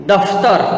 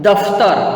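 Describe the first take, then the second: No difference in how they are said.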